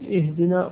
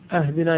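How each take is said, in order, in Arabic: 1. تبدأ الكلمة بحركة i. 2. تبدأ الكلمة بهمزة ثم a.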